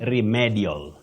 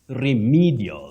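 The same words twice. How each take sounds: First: The first vowel is short, not a long ee. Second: The first vowel is a long ee sound. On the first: The speaker calls it wrong. "what you commonly hear locally is" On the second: The speaker calls it right. "That E takes the long high front sound E"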